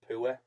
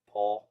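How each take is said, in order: First: It is said in a northeast English accent. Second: It is said in a standard English accent. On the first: "from the northeast you would say you're poor" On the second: "instead of poor"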